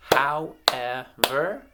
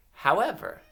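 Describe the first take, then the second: First: "However" slowly split as how, ev, er; three separate, firm beats on "However"; syllable by syllable. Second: Said in the usual way. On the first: Shown as a demonstration. Teacher clapping out words for children to blend, syllable by syllable. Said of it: "I'm gonna clap out". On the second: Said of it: "blend them together".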